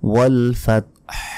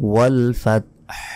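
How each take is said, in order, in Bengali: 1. শব্দটি একটি মৃদু শ্বাসযুক্ত h দিয়ে শেষ হয়। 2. শব্দটি একটি মৃদু শ্বাসযুক্ত h দিয়ে শেষ হয়।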